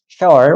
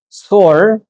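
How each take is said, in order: First: The word is said as two syllables, 'she-ol'. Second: The word is said as one syllable, 'soul'. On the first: The speaker calls it right. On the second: The speaker calls it wrong.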